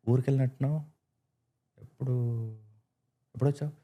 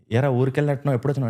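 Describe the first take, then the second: First: Softer, with long pauses after ఊరికెళ్ళినట్టున్నావు? and ఎప్పుడు,; pauses in odd places. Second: Said in the usual way. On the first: Shown as a demonstration. Imitating the actor's odd pauses to a villager, softer. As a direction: hold an unexpected pause before ఎప్పుడొచ్చావు?.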